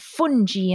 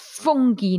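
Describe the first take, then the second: First: The g is pronounced as a soft sound. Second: The g is pronounced as a hard sound. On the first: The speaker calls it wrong. "not fungi" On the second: The speaker calls it right. "it's fungi"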